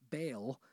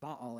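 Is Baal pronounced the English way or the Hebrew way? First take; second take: English; Hebrew. First: The name is given an English reading. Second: The name is given its Hebrew pronunciation. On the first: The word is read as if it were English. The speaker calls it wrong. "not Baal, because that would be an English reading of it" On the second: The word is treated as a Hebrew proper name. The speaker calls it right. "This is why we pronounce it Baal"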